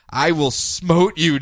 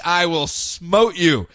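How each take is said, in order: First: I will smote you, drawn out slowly with weight on smote; a hammed-up slow threat, leaning on smote; slow mock threat. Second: I will smote you, said slowly with smote stressed hard; hammed-up slow threat repeating itself; slow mock threat. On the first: Mock archaic threat, slowed.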